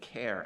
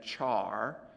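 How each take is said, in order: First: The word rhymes with care. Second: The word rhymes with car. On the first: The preferred way to say it. "I prefer care" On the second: Some people say it this way. "Some people pronounce that char, and I guess that's fine"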